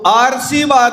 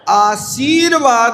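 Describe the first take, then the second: First: The r sound comes before the s. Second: The r sound comes before the v. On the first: The speaker calls it wrong. "यदि आपने सा के ऊपर रेप चढ़ा दी ना तो आरसीवाद होगा" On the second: The speaker calls it right. "बा के ऊपर चढ़ाओगे तो आशीर्वाद होगा"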